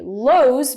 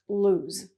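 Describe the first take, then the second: First: The vowel sounds like the one in chose. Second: The vowel sounds like the one in choose. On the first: The speaker calls it wrong. "you're going to tell me lose because there's only one O" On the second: The speaker calls it right. "the sound is the same as choose"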